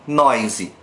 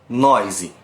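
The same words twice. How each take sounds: The two takes are said the same way.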